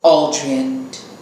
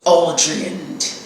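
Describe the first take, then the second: First: The name is said plainly, without a growl. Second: The name is growled through gritted teeth.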